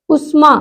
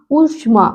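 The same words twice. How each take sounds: First: उष्मा quickly with short u; short first vowel. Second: उष्मा lower, opening ū held; long first vowel. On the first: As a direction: keep the opening of उष्मा unstretched. (उष्मा में छोटा उ) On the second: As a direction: lengthen the first sound of उष्मा. (उष्मा में लंबा ऊ) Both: Shown as a demonstration. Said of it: "बड़े ऊ की मात्रा".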